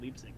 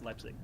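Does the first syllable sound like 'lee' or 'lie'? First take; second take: lee; lie. First: The first syllable sounds like 'lee'. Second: The first syllable sounds like 'lie'. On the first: The speaker calls it wrong. "You got me saying it Leipzig now" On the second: The speaker calls it right. "and it's Leipzig"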